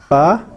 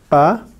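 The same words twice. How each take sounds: Both takes have the same delivery.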